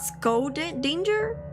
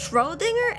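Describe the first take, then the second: First: The name begins with an 'sk' sound. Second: The name begins with a 'shr' sound. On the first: The speaker calls it wrong. "It's not Skodinger" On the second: The speaker calls it right. "it's Schrodinger"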